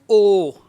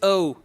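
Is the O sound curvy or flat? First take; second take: flat; curvy. First: The O is said as a flat vowel. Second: The O is said as a curvy vowel. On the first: The speaker calls it wrong. "What we do, we pronounce O" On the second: The speaker calls it right. "Actually, it is O. Again, curvy sound"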